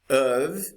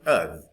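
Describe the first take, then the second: First: The vowel is full and clearly pronounced. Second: The vowel is reduced to a short schwa.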